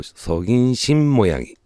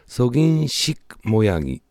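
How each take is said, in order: First: The syllable before 모양 ends in an n sound. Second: The syllable before 모양 ends in a k sound. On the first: "発音上성인신모양이となります" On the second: "本当は성인식모양이なんですが"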